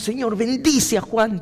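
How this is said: It is said with fervent, intense emotion. "ese ferviente decir"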